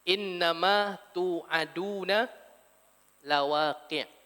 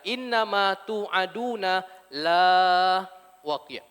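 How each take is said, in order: First: The vowel in 'la' is short. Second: The vowel in 'la' is long. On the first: What was promised will surely happen. The speaker calls it right. "Pendek la, yang jangan dibaca baca panjang" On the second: What was promised will never happen. The speaker calls it wrong. "Kalau para hadirin baca panjang"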